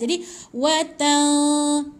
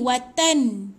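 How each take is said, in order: First: The n is hidden, nasal, without tongue contact. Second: The n is fully closed with the tongue. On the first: The speaker calls it right. "kalau ikhfa... Ah gantungkan lidah" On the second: The speaker calls it wrong. "Kalau sebut tepat pada nun macam bunyi bunyi dia macam ni"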